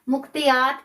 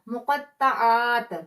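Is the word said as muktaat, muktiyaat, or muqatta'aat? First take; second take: muktiyaat; muqatta'aat. First: It is pronounced as muktiyaat. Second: It is pronounced as muqatta'aat. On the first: The speaker calls it wrong. "मुक्तियात कहेंगे" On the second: The speaker calls it right. "सही से आपने प्रोनाउंस करना है"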